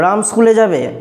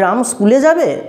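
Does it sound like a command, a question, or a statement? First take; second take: command; question. First: The voice is stern and firm like an order. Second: The voice bends upward like a curious question. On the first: Ram is being ordered to go to school. "কড়াভাবে নির্দেশ দিয়ে দিল" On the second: The speaker wants to know whether Ram will go. "কণ্ঠস্বরটাকে একটু বাঁকিয়ে বললাম"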